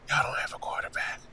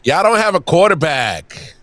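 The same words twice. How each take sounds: First: It is said at normal volume. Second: It is said loudly.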